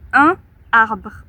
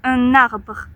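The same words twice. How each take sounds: First: The n is not carried into the next vowel. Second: The n is carried into the next vowel. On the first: The speaker calls it wrong. "On ne va pas dire un arbre" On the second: The speaker calls it right. "il y a une liaison"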